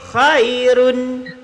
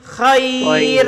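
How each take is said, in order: First: The word ends with the full -un ending. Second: The word stops on the r, ending dropped. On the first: The word is read on without stopping. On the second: The reader stops on this word.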